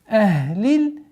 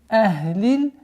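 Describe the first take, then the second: Both takes have the same delivery.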